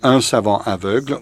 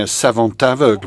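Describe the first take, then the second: First: Savant ends silently before aveugle. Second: A t sound links savant to aveugle. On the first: It means a blind scholar. "Without the liaison, aveugle is the adjective" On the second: It means a scholarly blind man. "with a liaison"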